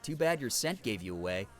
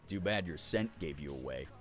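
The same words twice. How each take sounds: First: The voice is young, light and bright. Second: The voice is deep, gravelly and wolf-like.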